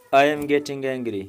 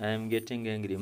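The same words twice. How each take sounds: First: Much louder, slow, I pushed hard; slow loud angry demo, I stressed; angry warning. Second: Said in the usual way. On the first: Shown as a demonstration. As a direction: warn them you are losing your temper.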